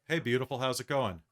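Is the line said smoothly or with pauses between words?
smoothly. The line runs on smoothly without pauses.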